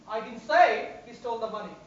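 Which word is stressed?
say. The word say is stressed. It was expressed some other way, such as in writing. "Maybe I've written about it"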